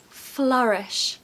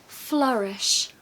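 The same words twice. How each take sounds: No difference in how they are said.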